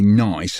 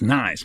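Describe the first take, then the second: First: Nice is said with a vowel like noise. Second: Nice is said in an American accent. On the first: "Whereas I say nice, and they think I'm saying noise" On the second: "you think Americans say nice. It's nice, man"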